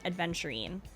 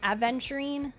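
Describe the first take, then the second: First: A d sound comes before the v. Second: There is no d sound before the v. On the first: The speaker calls it wrong. "I add a D in between the A and V" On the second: The speaker calls it right. "I know it's probably more like Aventurine"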